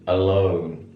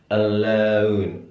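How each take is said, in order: First: It is said with an American pure o vowel. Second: It is said with a British eu-like vowel. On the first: "kalau di American baca O" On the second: "di British dibaca eu"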